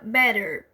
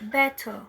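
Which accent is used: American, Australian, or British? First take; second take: American; British. First: The t sounds like a quick r. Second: A crisp t, and the ending sounds like a. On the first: "No inglês americano, nós temos sons mais abertos e o T tem um som de R" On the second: "Já no inglês britânico, é, o T tem um som de T mesmo. E o R, o E R, tem um som de A"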